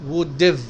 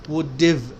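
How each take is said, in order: The two takes are said the same way.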